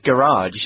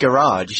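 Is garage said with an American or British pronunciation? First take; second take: American; American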